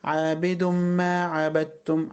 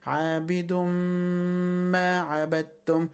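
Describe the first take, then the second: First: عابد ما run straight through without holding the m; no held ghunna. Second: Slow عابد ما with a long hummed m; held ghunna. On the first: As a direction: skip the hum in عابد ما. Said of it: "على طول كده". (عابد ما على طول بلا غنّة) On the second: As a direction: stretch the merged m before ما عبدتم. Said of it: "غنة ومد بمقدار حركتين". (إدغام عابد ما بغنّة ممدودة) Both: Shown as a demonstration.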